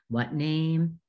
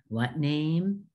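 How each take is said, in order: The two takes are said the same way.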